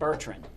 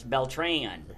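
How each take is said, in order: First: The name has an added R and D. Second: The name has an L and no D. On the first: The speaker calls it wrong. "pronounced it Bertrand" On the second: The speaker calls it right. "but it's Beltran"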